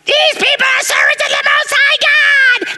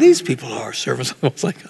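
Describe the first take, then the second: First: It is said in a grating, irritating way. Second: It is said in a calm, plain way.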